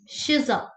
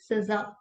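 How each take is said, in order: First: The name starts with an sh sound. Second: The name starts with an s sound. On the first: The speaker calls it right. "it's Shiza" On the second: The speaker calls it wrong. "it's not Siza"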